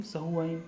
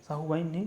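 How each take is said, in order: First: सहुवाइन with short स, quieter; teacher correcting to सहुवाइन; right form. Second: साहुवाइन with long सा, rejected; teacher rejecting साहुवाइन; wrong form. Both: Shown as a demonstration.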